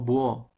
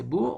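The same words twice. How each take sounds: First: "búho" squashed into buÓ; joined vowels. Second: "Búho" as BÚ-o, stress on the U; teacher's correct "Búho", two syllables; separated vowels. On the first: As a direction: run "búho" into one syllable, weight on the o. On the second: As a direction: hold the U of "Búho", then a separate o. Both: Shown as a demonstration. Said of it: "entonces serían unidas".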